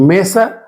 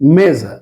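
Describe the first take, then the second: First: The middle consonant is a hissing s sound. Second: The middle consonant is a buzzing z sound. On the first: The speaker calls it wrong. "মেসা উচ্চারণটা না হয়ে" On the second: The speaker calls it right. "এটা এখানে কি হলো মেজা"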